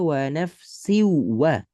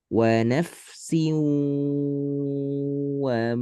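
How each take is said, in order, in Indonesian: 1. W yang digandakan itu dihentak tiba-tiba tanpa sengau. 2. W yang digandakan itu ditahan dengan dengung sengau. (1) "jangan dibaca wa nafsiwa. Jangan siwa. Itu dihentak" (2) "Di sini sengau. Siu gitu"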